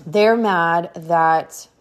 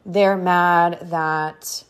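The two takes are said the same way.

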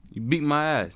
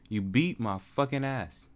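First: Loud, raised "you beat my ass"; emphatic complaint. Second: Slow, weighted "You beat my fucking ass"; drawn-out emphasis. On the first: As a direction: blurt it out loud and high in one quick go. First take of a punchline. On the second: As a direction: spell out "beat my fucking ass" slowly, word by word. Repeats punchline, drawn out. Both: Real, not acted.

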